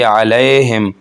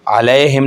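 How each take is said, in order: First: The wrong way, the या not softened; wrong leen. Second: अलैहिम repeated the wrong way, with no softness; wrong leen. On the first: Teacher showing the wrong reading to students. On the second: Teacher repeating the wrong reading as a warning. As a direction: repeat the mistake plainly. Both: Shown as a demonstration. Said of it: "यहाँ पर हम ऐसे नहीं पढ़ेंगे".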